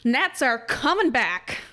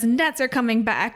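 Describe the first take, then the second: First: It is said in a dramatic character voice. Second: It is said in the speaker's normal voice.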